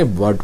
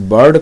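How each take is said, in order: First: वर्ड as British "bird", with silent R; correct British bird. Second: बर्ड with the R sounded; mispronounced bird. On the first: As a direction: go straight from vowel to D in वर्ड. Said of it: "वर्ड पढ़ेंगे". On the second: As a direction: say the R before D in बर्ड. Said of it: "बर्ड ना पढ़ करके". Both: Shown as a demonstration.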